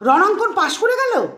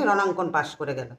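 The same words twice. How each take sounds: First: It sounds surprised with little happiness. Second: It sounds angry. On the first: The passing was unexpected but not especially welcome. "এখানে কিন্তু এতটা আনন্দ নেই, কিন্তু এখানেও অবাক।" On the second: The passing is resented. "এখানে কিন্তু রাগ"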